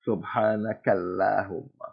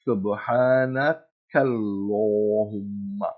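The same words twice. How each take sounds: First: The L is light, with a flat mouth. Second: The L is heavy, with a full round mouth. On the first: The speaker calls it wrong. "and not" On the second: The speaker calls it right. "the dua is"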